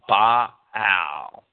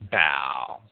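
First: The word is split into two separate syllables. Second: The word is run together as one syllable. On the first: "Strong seeks to make the word into two distinct syllables" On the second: "easily elided into Baal"

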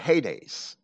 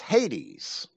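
First: The word has a Greek pronunciation. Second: The word has an English pronunciation.

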